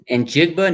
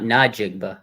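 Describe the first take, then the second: First: It begins with a plain N sound. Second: It begins with an N plus a vowel. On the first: The speaker calls it right. "says Njigba" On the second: The speaker calls it wrong. "not Najigba"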